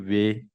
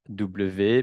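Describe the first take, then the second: First: The letter is pronounced as in Dutch. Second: The letter is pronounced as in French. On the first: The speaker calls it right. "mais on dit W" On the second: The speaker calls it wrong. "On ne dit pas W"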